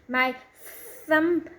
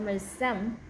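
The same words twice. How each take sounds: First: Thumb begins with a th sound, tongue between teeth. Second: Thumb begins with a t or s sound instead. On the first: The speaker calls it right. "tongue is coming" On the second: The speaker calls it wrong. "the tongue is not coming out"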